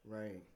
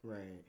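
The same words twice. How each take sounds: The two takes are said the same way.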